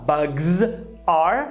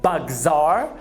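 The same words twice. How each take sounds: First: The two words are said apart, not joined. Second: The two words are joined into one smooth unit. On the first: The speaker calls it wrong. "ao invés de você falar" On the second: The speaker calls it right. "Você vai juntar com are"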